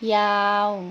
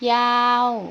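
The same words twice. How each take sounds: First: The pitch stays level in the middle. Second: The pitch falls from high to low. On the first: "เสียงสามัญ" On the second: "เสียงโท"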